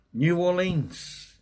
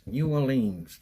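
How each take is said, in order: First: New Orleans drawn out slow and high; savoured slowly. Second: Said in the usual way. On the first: Shown as a demonstration. Streamer savouring a chatter's home city, New Orleans slow and drawn. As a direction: stretch New Orleans out as if tasting it. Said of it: "repeats city name savouring it". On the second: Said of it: "repeats city name".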